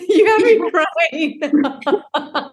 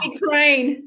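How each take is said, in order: First: Teary laugh, drawn out; laughing through tears. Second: Said in the usual way. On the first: Real, not acted. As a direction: laugh it out while welling up.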